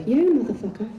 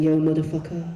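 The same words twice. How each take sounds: First: Rapped, higher, punched-out swaggering shout; rapped, throw it out with swagger; punchy rap greeting. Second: English voice. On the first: Boys practicing rap greeting, full swagger. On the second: Boys practicing rap greeting, unconvincing English accent. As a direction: say it in a plain English voice. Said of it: "in an English voice, it doesn't work". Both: Shown as a demonstration.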